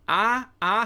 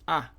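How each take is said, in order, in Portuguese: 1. Pronuncia-se duas vogais 'a' separadas. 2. Pronuncia-se uma única vogal 'a' fundida. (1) "Não fala assim não, porque isso soa é, é super pedante" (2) "É a"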